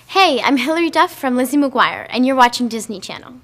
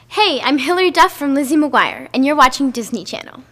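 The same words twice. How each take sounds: First: Disney Channel is said with normal energy. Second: Disney Channel is said with extra energy.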